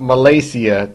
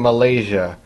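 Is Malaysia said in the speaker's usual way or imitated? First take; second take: imitated; usual. First: Malaysia is said in an imitated different pronunciation. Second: Malaysia is said in the speaker's usual pronunciation. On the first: The speaker calls it wrong. "not Malaysia, the way Brooklyn Mouse would say it" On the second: The speaker calls it right. "It's made in Malaysia"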